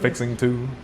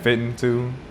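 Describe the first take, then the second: First: The word ends with a full "ing" sound. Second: The word ends in "in" without a g.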